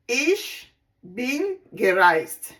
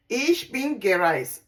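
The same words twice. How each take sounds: First: "Ich" set apart, then "bin gereist" drawn out slowly; slow demo. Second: Said in the usual way. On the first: Shown as a demonstration. Teacher showing students the German past tense, slow and deliberate. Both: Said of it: "We say it this way".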